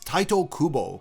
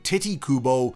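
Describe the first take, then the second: First: The first name starts with an 'eye' vowel. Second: The first name starts with an 'ee' vowel. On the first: The speaker calls it right. "the correct pronunciation in Japanese is Taito Kubo" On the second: The speaker calls it wrong. "people seem to really enjoy calling him Titi Kubo"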